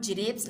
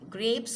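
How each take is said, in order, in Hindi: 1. यह शब्द J की आवाज़ से शुरू होता है। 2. यह शब्द कड़े G की आवाज़ से शुरू होता है। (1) "जी फॉर जिरेप्स नहीं होता" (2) "जी फॉर ग्रेप्स होता है"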